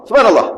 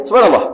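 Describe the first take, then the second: The two takes are said the same way.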